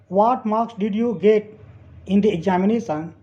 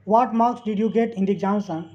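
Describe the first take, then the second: First: Slow, split into two parts; slow dictation. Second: Said in the usual way. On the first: Shown as a demonstration. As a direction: read it slowly in chunks for learners. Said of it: "teacher reads sentence slowly". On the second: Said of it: "teacher repeats sentence".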